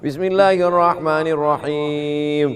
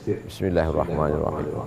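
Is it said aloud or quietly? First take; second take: aloud; quietly. First: It is said aloud, clearly voiced. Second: It is said quietly, nearly under the breath.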